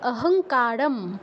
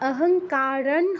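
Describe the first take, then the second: First: The word ends with an m sound. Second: The word ends with an n sound. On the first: The speaker calls it right. "এখানে ময় হসন্ত উচ্চারণ হবে" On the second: The speaker calls it wrong. "অহংকারণ হবে না"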